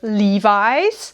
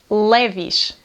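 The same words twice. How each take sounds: First: It has the original English pronunciation. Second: It has the Portuguese pronunciation. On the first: "a forma original de dizer é Levi's" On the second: "mas nós dizemos Levi's"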